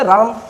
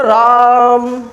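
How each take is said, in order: First: Said in the usual way. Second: राम with the आ held very long, three beats; stretched three-beat vowel. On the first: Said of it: "एक बोले राम". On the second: Shown as a demonstration. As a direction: draw out राम slowly, really hold the आ. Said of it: "और एक बोले राम". (राम को तीन मात्रा तक खींचकर बोलना)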